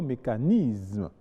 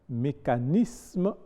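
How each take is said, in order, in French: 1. Le s se prononce avec un son z. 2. Le s se prononce avec un son s. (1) "et non mécanisme" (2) "mécanisme et non"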